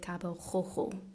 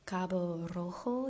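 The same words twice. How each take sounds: First: The R is guttural, made in the throat. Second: The R is rolled with the tongue tip. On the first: "the French R sound, which is more like guttural" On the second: "this traditional Spanish R is a rolled R"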